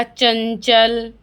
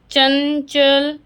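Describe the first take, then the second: First: चंचल said slowly with the nasal ं hummed through the nose; nasal anusvara demo. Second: चंचल stretched very slowly, the ं buzzing in the nose; nasal anusvara demo. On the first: Teacher showing kids the nasal sound in चंचल slowly. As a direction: draw out चंचल, letting the nasal ring. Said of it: "बोल के देखिए सभी". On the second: Teacher demonstrating nasal चंचल to children, very slow. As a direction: hold the nasal of चंचल long for the class. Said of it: "लग रहा है आपको कि नाक से बोल रहे हैं". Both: Shown as a demonstration.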